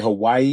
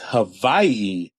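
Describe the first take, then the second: First: The second syllable starts with a W sound. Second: The second syllable starts with a V sound. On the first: This is how most people say it. The speaker calls it wrong. "when people say Hawaii" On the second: This is how it is said locally. The speaker calls it right. "the W is pronounced like a V out here"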